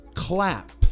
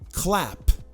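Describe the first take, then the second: The two takes are said the same way.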